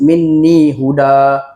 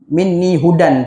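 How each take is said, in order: First: The last word ends in a long vowel. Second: The last word ends in an n sound. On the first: The reciter stops after this word. "bila kita berhenti dekat huda, kita akan baca satu baris" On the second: The reciter continues without stopping. "tapi kalau sambung"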